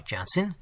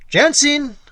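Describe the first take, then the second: First: Said in the usual way. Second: High, loud shout of a name across the tavern; loud call. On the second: Acted. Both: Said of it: "cried in a loud tone".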